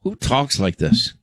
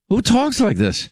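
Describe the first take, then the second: First: Said in the usual way. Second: High-pitched, baffled outburst; incredulous. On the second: Real, not acted. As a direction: pitch leaps high in disbelief. Incredulous repeat after the clip.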